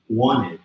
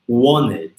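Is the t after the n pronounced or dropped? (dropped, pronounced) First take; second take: dropped; dropped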